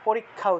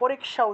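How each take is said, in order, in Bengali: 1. যুক্তব্যঞ্জনটি দ্বিত্ব k এবং kh দিয়ে উচ্চারিত হয়। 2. যুক্তব্যঞ্জনটি k এবং তারপর sh হিসেবে উচ্চারিত হয়। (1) "অর্থাৎ ভুল উচ্চারণ করি" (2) "পরীক্ষা উচ্চারণ করা উচিত ছিল"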